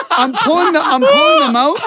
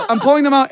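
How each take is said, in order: First: High-pitched laughing squeal. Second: Said in the usual way. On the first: Real, not acted. Telling friends the gross story, cracking up high and loud. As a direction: squeak it out much higher, cracking up.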